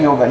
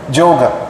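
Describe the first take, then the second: First: The word begins with a Y sound. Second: The word begins with a J sound. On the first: This is the original Sanskrit pronunciation. "it's actually yoga" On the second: This is the regional Bengali pronunciation. "they pronounce it as Joga... Joga, we say"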